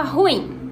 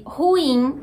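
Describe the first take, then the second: First: "ruim" as one syllable, RUIM, stressed on the U. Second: "ruim" split in two, ru-IM, stress on IM; two syllables. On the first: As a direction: run "ruim" together in a single beat. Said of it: "ruim, sendo uma coisa só". ("ruim" numa sílaba só, com ditongo) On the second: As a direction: slowly separate "ruim" into ru-IM. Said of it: "ruim com duas sílabas". ("ruim" em duas sílabas, ru-IM) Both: Shown as a demonstration.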